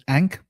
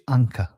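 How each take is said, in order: First: The word ends on the k sound. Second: The word ends with a vowel after k. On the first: The speaker calls it wrong. "Now we think of it as ank" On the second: The speaker calls it right. "but it's actually anka"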